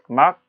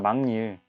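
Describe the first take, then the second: First: The first syllable ends in a k sound. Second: The first syllable ends in an ng sound. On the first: The speaker calls it wrong. "니은 첨가가 일어난 것이죠" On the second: The speaker calls it right. "니은 첨가가 일어난 다음에 비음화가 일어난 막닐"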